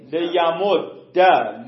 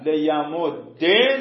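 First: لیمد ده slowed, ending on an open a; slow demo of لیمد ده with fatha. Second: لیمد ده slowed, ending on e with a rising tune; slow demo of لیمد ده with kasra. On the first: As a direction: stretch out لیمد ده with a final a vowel. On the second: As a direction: say لیمد ده slowly, final e lifted. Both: Shown as a demonstration. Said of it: "چهار نمونه میشه".

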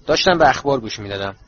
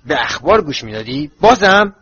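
First: Mildly resigned statement, no fight in it. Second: Indignant disbelief. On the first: Boy caught under the window, answering with resignation. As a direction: give in and admit it. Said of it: "با صدایی که انگار به تقدیر پیش آمده تسلیم شده است". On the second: Uncle throwing the boy's answer back, indignantly. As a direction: echo it as a question, leaping up louder at the end. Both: A narrator's reading.

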